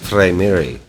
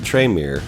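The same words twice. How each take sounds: First: It uses a Latin-style pronunciation. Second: It uses the common English pronunciation. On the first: "their Latin counterparts" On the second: "the most used pronunciations"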